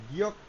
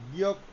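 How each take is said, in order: Both takes have the same delivery.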